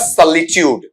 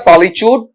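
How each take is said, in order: First: The word is said without strong stress. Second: The word is said with strong stress. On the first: "unstressed में रहेगा" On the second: "stressed manner में रहेगा"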